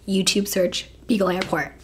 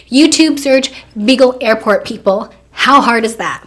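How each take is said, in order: First: Said in the usual way. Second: Loud exasperation. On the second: Acted. Exasperated that her boyfriend can't repeat a simple search, loud. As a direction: punch out each word as if it's obvious.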